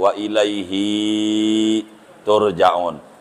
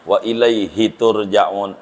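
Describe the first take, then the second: First: The final vowel of ilaihi is drawn out long. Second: The final vowel of ilaihi is kept short. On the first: The speaker calls it wrong. "orang-orang yang baca Yasin tuh" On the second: The speaker calls it right. "Mestinya ... nggak panjang dia"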